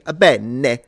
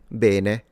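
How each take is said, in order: First: It has a thick, stereotyped fake Italian accent. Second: It has a northern Italian regional pronunciation. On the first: This is how Italians do not actually speak. The speaker calls it wrong. "No Italian would say bene" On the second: This is how people from the north say it. The speaker calls it right. "Or if you're from the north"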